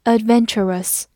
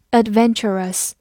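Both takes have the same delivery.

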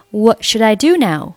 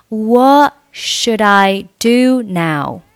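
First: Said in the usual way. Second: Slowly, "What" without its t, "should I" joined; slow linked demo. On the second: Shown as a demonstration. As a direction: model "What should I do now?" slowly for learners. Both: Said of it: "What末尾不用发音".

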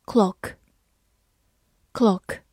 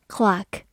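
First: Said in the usual way. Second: "clock" in an American accent, open "ah" vowel; American pronunciation. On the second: Shown as a demonstration. Teacher shows learners the American version, "clock" in American pronunciation. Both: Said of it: "美式发音".

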